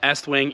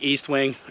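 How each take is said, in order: First: The first syllable sounds like 'ess'. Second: The first syllable sounds like 'east'. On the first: This is the proper pronunciation of the name. The speaker calls it right. "It's supposed to be Est wing" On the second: This is how most people say the name. The speaker calls it wrong. "Everyone calls them East wing"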